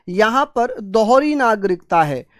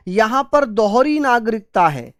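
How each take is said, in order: Both takes have the same delivery.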